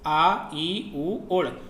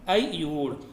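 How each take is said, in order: First: Each sound is said separately with pauses. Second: It is said smoothly as one joined word.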